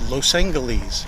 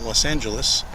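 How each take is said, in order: First: It uses the old radio announcers' pronunciation. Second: It uses today's common pronunciation of the name. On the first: "they always say Los Angeles" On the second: "what we commonly call Los Angeles"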